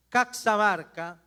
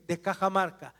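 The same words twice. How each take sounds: First: "Caxamarca" with the x as ks, kak-sa-MAR-ka; old pronunciation. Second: Said in the usual way. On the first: Shown as a demonstration. Guide shows visitors the old name, "Caxamarca" said with ks. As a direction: give "Caxamarca" its old ks sound. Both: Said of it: "que ahora se llama Cajamarca".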